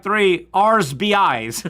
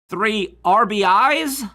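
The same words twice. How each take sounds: First: Slow, punched R'S B IS, S after the R; R'S B IS spelled out deliberately, plural R first. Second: Slow, loud R B IS, plural on the I; R B IS stretched out, S only on the last letter; plural at the end. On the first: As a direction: lean on R'S in R'S B IS, slowly. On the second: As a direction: spell out R B IS slowly, questioning. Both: Shown as a demonstration. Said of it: "where do you put the plural?".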